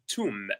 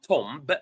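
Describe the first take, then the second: First: The final b sound is silent. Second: The final b sound is pronounced. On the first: The speaker calls it right. "but tomb" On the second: The speaker calls it wrong. "not tomb"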